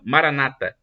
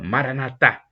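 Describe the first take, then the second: First: The stress is on the second-to-last syllable. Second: The stress is on the last syllable. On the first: This is how Protestants say it. "eles colocam a tônica na penúltima sílaba" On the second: This is how Catholics say it. "Os católicos dizem com a tônica na última sílaba"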